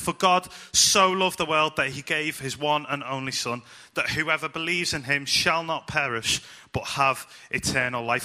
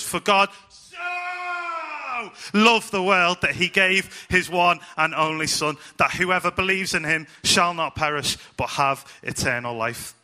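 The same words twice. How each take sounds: First: No single word gets strong extra emphasis. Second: One key word gets strong extra emphasis.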